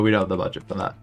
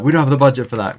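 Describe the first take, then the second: First: It sounds polite and gentle. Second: It sounds blunt and demanding. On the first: The speaker is simply declining the offer. The speaker calls it right. "I was just like, "Oh no" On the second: The speaker is pushing for a lower price. The speaker calls it wrong. "I didn't say it in the way that like you know like uh"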